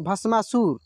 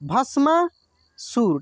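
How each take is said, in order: First: The word is said smoothly as one whole. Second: The word is split into parts with a break. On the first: "दोबारा एक साथ बोल दीजिए" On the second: "एक बार उच्चारण कर लीजिए"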